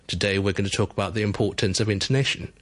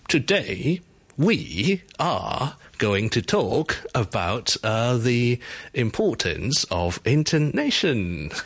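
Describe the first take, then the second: First: The pitch moves gently, highlighting only key words. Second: The pitch swings strongly on nearly every word. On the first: Only the main point stands out. The speaker calls it right. "The usual way to do it would be" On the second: Every word sounds equally important. The speaker calls it wrong. "That's a little bit too much, right?"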